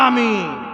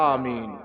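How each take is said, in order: First: It is shouted with exaggerated, booming force. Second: It is said aloud but in a measured way. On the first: Others say it as if to blow the roof off. The speaker calls it wrong. "মনে হচ্ছে মাকে কসম দিয়েছে, আমিন বলে মসজিদের ছাদে উড়িয়ে দেবে" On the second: This is the proper way to say it aloud. The speaker calls it right. "জোরে বললেও তো একটা ই আছে"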